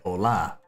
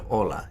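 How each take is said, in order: First: The stress is on the last syllable. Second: The stress is on the first syllable. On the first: "they have the inflection on the end" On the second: "instead of hola"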